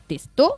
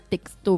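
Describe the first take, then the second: First: It is said with no k sound before s. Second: It is said with a k sound before s. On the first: The speaker calls it right. "mais testo" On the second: The speaker calls it wrong. "c'est pas texto"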